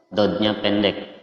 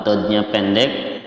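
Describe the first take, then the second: No difference in how they are said.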